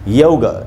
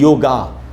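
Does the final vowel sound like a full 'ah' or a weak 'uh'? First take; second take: weak uh; full ah. First: The word ends in a weak, short 'uh' vowel. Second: The word ends in a full, long 'ah' vowel. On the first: The speaker calls it right. "इसको हमको पढ़ना चाहिए योग" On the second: The speaker calls it wrong. "न कि योगा"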